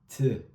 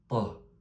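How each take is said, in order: First: The T sound is plain, like French T. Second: The T sound is said very deep. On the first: The speaker calls it wrong. "Ça donne pas T" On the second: The speaker calls it right. "qu'on prononce de façon très très grave"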